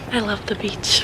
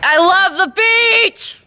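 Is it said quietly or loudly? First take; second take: quietly; loudly. First: It is said quietly and low. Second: It is said loudly and brightly.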